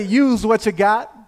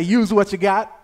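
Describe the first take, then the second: First: Louder, higher, slower full-chested call. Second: Loud call for the congregation to repeat; loud prompt. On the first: Preacher urges congregation to say it again, loud chest voice. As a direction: belt it out slowly from the chest. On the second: Preacher tells listeners to repeat the title, loud prompt. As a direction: call the phrase out to the room. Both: Shown as a demonstration. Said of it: "Say it with your chest".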